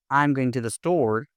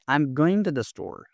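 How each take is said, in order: First: "going to" said in full; unreduced "I'm going to the store"; careful full form. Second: "I'm going to" run together; blended "going to", falling to the end; contracted casual form. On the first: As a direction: pronounce "going" and "to" as separate words. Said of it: "Instead of saying". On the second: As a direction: link "I'm going to the store" smoothly. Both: Shown as a demonstration.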